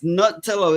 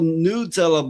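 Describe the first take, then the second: First: The first syllable sounds like 'nut'. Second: The first syllable sounds like 'new'. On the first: The name comes from nuts. The speaker calls it right. "but it's Nutella. It actually comes from nuts" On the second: This is how Americans say it. The speaker calls it wrong. "Americans go Nutella"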